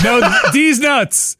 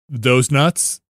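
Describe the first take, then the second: First: D's stretched out and higher; D's hit hard and drawn out; hard stress on D's. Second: Said in the usual way. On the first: Retold or imitated. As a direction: correct him by leaning slowly on D's. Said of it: "says, like, the D's real, like, hard".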